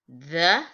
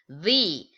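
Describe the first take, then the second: First: It ends in a short 'uh' sound. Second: It ends in a long 'ee' sound. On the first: It comes before a word starting with a consonant. "usually used before a consonant" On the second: It comes before a word starting with a vowel. "the sound before the vowel"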